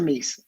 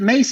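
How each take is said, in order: First: The vowel sounds like the one in 'piece'. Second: The vowel sounds like the one in 'face'. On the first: The speaker calls it wrong. "probably mispronounced your name for years" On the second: The speaker calls it right. "It's Mace. Mace, like pepper spray"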